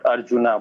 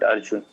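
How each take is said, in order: First: The name ends with an added final vowel. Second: The name ends on the consonant n. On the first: The speaker calls it wrong. "It's not Arjuna" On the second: The speaker calls it right. "but Arjun"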